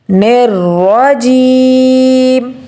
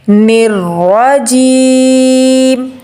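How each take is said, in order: Both takes have the same delivery.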